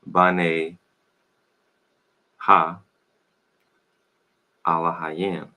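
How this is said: It uses only a and i vowel sounds. "if you want to say it in that pronunciation"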